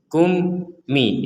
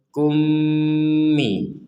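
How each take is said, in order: First: There is a break between the two syllables. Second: The two syllables run together without a break. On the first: The speaker calls it wrong. "itu diputus namanya, dipotong" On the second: The speaker calls it right. "kita bacanya langsung kummi"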